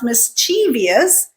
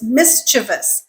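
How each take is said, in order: First: The second syllable has an ee sound. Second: The second syllable has no ee sound. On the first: The speaker calls it wrong. "it's like a whole different word" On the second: The speaker calls it right. "pretend that E in the second syllable doesn't exist"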